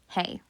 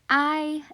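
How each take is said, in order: First: The word begins with an h sound, like hey. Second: The word begins with a vowel, like eye. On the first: The speaker calls it wrong. "not hey" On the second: The speaker calls it right. "it is pronounced I"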